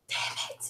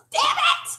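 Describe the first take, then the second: First: Voiceless curse under the breath; whispered self-reproach. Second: Squeaky exasperated curse; high-pitched self-reproach. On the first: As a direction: whisper it, kicking yourself. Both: Retold or imitated. Acts out realizing her own mistake.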